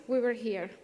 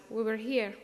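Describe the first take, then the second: No difference in how they are said.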